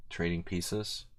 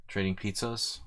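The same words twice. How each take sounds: First: Said in the usual way. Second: "pizzas" said playfully in place of "pieces"; pizzas pun. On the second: Pretend. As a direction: swap "pieces" for a jokey "pizzas".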